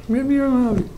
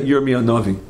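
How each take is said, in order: First: High-pitched astonished echo of the name; amazed repeat. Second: Said in the usual way. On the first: Real, not acted. Speaker marvels to listeners at whom Plato met, amazed. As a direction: repeat it, marvelling, much higher.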